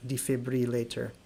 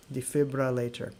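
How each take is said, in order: Both takes have the same delivery.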